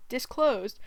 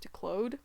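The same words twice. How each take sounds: First: Said in the usual way. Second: Declosed? said as de-closed, doubtful rising; trying out declosed? with a de- start, questioning; declosed? mispronounced with de- in place of dis-, checking it; unsure mispronunciation. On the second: Shown as a demonstration. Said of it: "dis-, disclosed".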